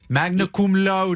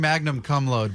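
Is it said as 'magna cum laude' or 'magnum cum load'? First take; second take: magna cum laude; magnum cum load. First: It ends in 'magna' and 'lowdy'. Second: It ends in 'magnum' and 'load'. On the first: The speaker calls it right. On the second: The speaker calls it wrong.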